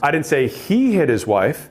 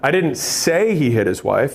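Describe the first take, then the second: First: The stress is on he. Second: The stress is on say.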